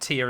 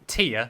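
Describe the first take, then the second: First: The word rhymes with ear. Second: The word rhymes with air. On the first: It means a drop from crying. "tear as in crying" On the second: It means a rip. "I hope you mean tear"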